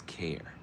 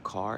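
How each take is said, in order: First: Care said as in caring, kair, whispered; right vowel. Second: Car said as in automobile, kahr; car, open ah vowel; wrong vowel. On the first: Contrasting the right syllable in Sha'Carri, whispered care. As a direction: care with the air vowel, breathy. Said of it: "it's care". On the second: Contrasting the wrong syllable in Sha'Carri, car. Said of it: "It's not car". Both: Shown as a demonstration.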